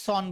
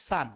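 First: সন said with a rounded o, the common mistake; সন as the wrong version; wrong pronunciation. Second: সান with an open a sound instead of o; সান, open a, not rounded; correct pronunciation. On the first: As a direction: demo of the error, সন short and rounded. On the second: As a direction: model সান clearly with the open a. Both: Shown as a demonstration. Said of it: "এটা কিন্তু ভুল".

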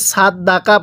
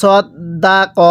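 First: সাত দাকা with plain s and open a vowels; সাত দাকা read with light, everyday consonants; common mispronunciation. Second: সদ দা ক with rounded heavy s and k; সদ দা ক recited with full, heavy consonants; careful Quranic pronunciation. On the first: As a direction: say সাত দাকা with an ordinary Bengali k. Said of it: "তাহলে পড়াটা সহিশুদ্ধ হবে না". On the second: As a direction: sound out সদ দা ক syllable by syllable, o-coloured first and last. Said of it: "কীভাবে পড়তে হবে?". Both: Shown as a demonstration.

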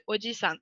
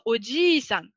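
First: "oji-san" with a short i, not held. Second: "oji-san" with a drawn-out i, odjiii-san; long I. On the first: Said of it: "au lieu de". (« oji-san » au i court) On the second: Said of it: "un allongement du i". (« oji-san » au i bien allongé) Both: Shown as a demonstration.

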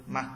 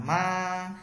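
First: "ma" cut short midway; neutral tone. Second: "ma" held long on a high level tone; first tone. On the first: Teacher showing learners the light tone, "ma" stopped short. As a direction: say "ma" briefly, stopping before the tone finishes. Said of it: "thanh nhẹ giữa chừng bạn dừng luôn". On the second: Teacher showing learners the first tone, "ma" held high and level. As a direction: stretch "ma" out high and steady. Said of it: "thanh một bạn đọc là". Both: Shown as a demonstration.

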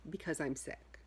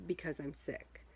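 No difference in how they are said.

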